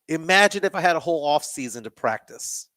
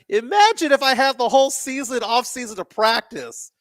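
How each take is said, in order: First: It is said in a plain, neutral tone. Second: It is said in a pointed, defiant tone.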